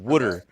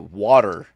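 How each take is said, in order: First: It is said in Keith's accent, like wooder. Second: It is said in the speaker's own accent.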